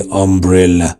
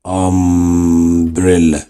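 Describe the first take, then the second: First: Said in the usual way. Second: Umbrella stretched very slowly, short u sound at the start; slow short u demo. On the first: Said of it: "شوف الأ". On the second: Shown as a demonstration. Teacher to students, showing the short vowel in umbrella. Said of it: "الأ نطق قصير ياخد آن".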